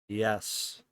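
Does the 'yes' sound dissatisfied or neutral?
dissatisfied. It sounds clearly dissatisfied.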